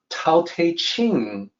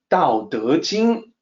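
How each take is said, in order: First: It starts with a hard T sound. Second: It starts with a soft D sound. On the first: The speaker calls it wrong. "the sound I make is not Tao Te Ching" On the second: The speaker calls it right. "it's always Tao De Jing, which is the original pronunciation"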